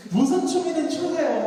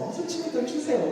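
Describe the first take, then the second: First: 무슨 punched higher and louder; coaxing, 무슨 hit hard; stress on 무슨. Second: Urging, ending on 추세요; stress on 추세요. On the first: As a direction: lean hard into 무슨. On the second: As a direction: land the push on 추세요. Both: Shown as a demonstration.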